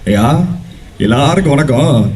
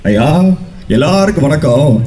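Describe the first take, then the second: First: It is an impression of an older man's voice. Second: It is an impression of a younger man's voice. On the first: "Sivakumar சாரோட voice எப்படி இருக்குன்னா" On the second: "இதுல இருந்து base தான் Surya sir"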